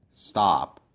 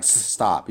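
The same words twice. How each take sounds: First: Said in the usual way. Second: Hissed S held apart, then the rest of "stop"; split into two syllables. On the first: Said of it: "You would say it as one syllable". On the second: Shown as a demonstration. Teacher shows how not to say stop, S split off. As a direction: break "stop" after a drawn-out S. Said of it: "pronounce it as two syllables".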